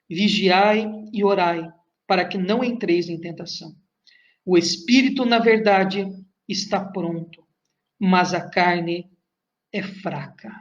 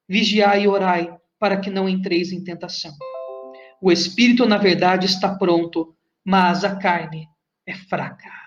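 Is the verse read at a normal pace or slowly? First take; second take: slowly; normal pace. First: It is read slowly with pauses. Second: It is read at a normal pace.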